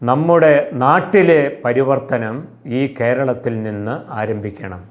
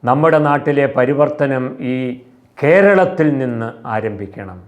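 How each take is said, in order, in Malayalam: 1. ഊന്നൽ വരുന്നത് നമ്മുടെ എന്ന വാക്കിലാണ്. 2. ഊന്നൽ വരുന്നത് കേരളത്തിൽ എന്ന വാക്കിലാണ്.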